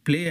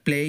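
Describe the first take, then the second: The two takes are said the same way.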